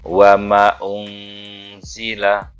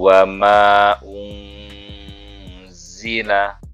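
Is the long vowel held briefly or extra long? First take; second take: briefly; extra long. First: The long vowel is held only briefly. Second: The long vowel is stretched out much longer. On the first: "jangan dibaca" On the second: "dipanjangkan lagi"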